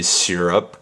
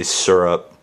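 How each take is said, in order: First: "syrup" said as SEER-up, giving the Y its sound; the by-the-book "syrup", SEER-up. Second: "syrup." said as SUR-up, with an R-colored first vowel; her syrup. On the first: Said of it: "I should say syrup". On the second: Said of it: "I say syrup". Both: Shown as a demonstration.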